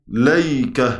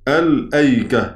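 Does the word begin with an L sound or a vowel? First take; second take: L sound; vowel. First: The word starts directly with an L sound. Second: The word starts with a vowel before the L. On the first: This follows the other groups' reading of the word. "على قراءة غيرهم تبقى إيه؟" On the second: This follows one group's reading of the word. "على قراءة من قرأ الأيك، تبقى عندي كده باللفظ"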